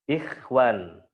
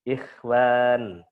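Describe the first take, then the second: No difference in how they are said.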